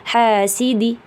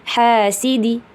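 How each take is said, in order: The two takes are said the same way.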